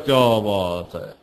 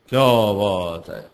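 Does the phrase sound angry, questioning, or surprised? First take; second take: surprised; surprised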